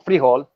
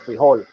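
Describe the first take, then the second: First: The stress is on the first syllable. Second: The stress is on the second syllable. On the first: This is how it is said in Colombia. "they put the uh, emphasis on the first syllable" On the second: This is how it is said in Mexico. "they put the emphasis on the on the second syllable"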